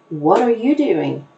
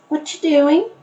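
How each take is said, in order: First: Every word is said fully and clearly. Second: The word are is dropped and words run together. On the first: The speaker calls it right. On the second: The speaker calls it wrong.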